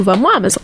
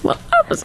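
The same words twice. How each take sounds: First: Said in the usual way. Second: Higher, breathy squeal on "vamos, Amazon"; squeaky breathy "vamos, Amazon" egging Amazon on; squeaky cheer. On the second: Pretend.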